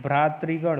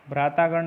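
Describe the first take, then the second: First: भ्रातृगण with middle "tri"; deliberate tri in भ्रातृगण; correct form. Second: भ्रातागण with middle "taa"; wrong form. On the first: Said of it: "होता है". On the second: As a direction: say bhraa-taa-gan for भ्रातागण. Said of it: "नहीं". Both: Shown as a demonstration.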